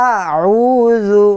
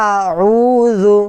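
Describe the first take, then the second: Both takes have the same delivery.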